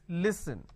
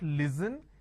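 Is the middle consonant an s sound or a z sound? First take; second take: s sound; z sound. First: The middle consonant is an s sound. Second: The middle consonant is a z sound. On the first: The speaker calls it right. "it's listen" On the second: The speaker calls it wrong. "It's not listen, they replace the s with a z"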